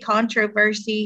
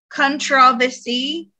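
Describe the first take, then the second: First: It is said the American way. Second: It is said the British way.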